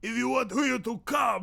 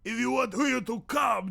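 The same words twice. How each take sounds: First: It is spoken in a Watto character voice. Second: It is spoken in a Watto character voice.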